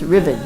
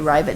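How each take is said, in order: First: The word rhymes with driven. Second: The word does not rhyme with driven. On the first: The speaker calls it right. "it rhymes with driven" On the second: The speaker calls it wrong. "Some people say ribbon"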